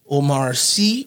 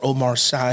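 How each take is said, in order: First: The surname is not given a spelling-based English reading. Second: The surname is read the way English spelling suggests.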